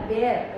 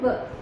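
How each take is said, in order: First: The vowel is long, like 'wair'. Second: The vowel is short, like 'wur'. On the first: The speaker calls it wrong. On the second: The speaker calls it right.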